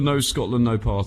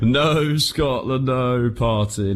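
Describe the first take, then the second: First: It is said flatly, without much enthusiasm. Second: It is said with more enthusiasm and energy.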